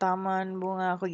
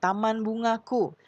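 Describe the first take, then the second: First: The sounds are articulated loosely and unclearly. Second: Every sound is articulated clearly and carefully. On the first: The speaker calls it wrong. "Jangan taman bungaku gitu ya" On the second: The speaker calls it right. "Untuk lafal itu artikulasinya ya"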